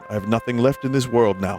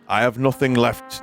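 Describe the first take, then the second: First: It is said in a posh English accent. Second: It is said in a northern English accent.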